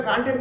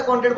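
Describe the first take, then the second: First: कॉन्ट्रैक्ट said the desi Hindi way, with a laugh; Hindi-style pronunciation. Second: Said in the usual way. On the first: Shown as a demonstration. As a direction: relish saying कॉन्ट्रैक्ट with Hindi vowels. (कॉन्ट्रैक्ट Hindi अंदाज़ में, हँसते हुए) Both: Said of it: "मैं हिंदी वाला pronounce कर रहा हूँ".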